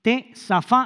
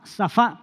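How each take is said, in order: First: T, safá said with a T sound before safá, stress on the final a; T, safá with T onset and final a stressed. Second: Safá said as sa-FA, stress on the final a, no T sound before it; safá with plain s onset, final a stressed; safá without the T. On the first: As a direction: begin with a T, then safá, stressing the last a. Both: Shown as a demonstration. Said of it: "pero que comienza con T".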